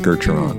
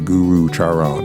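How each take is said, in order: First: The vowel after 'Gur' is silent. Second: The vowel after 'Gur' is pronounced. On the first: The speaker calls it right. "The second U is silent" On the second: The speaker calls it wrong. "you do not say Guru Charan"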